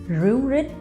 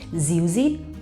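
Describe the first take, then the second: First: The first consonant is an R sound. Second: The first consonant is a Z sound. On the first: "they would pronounce Ru rit" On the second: "in the north of Vietnam, we pronounce R as Z"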